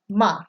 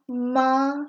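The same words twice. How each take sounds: First: It is said with the fourth tone. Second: It is said with the first tone. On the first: It means to scold. "You're yelling at someone" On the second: It means mom. "when you go down the tone list"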